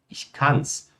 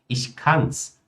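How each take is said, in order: The two takes are said the same way.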